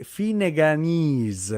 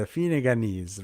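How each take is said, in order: First: Finneganese drawn out, slow. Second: Said in the usual way. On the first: Shown as a demonstration. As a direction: savour each syllable of Finneganese.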